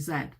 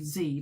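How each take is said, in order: First: The letter is said as zed, British style. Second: The letter is said as zee, American style.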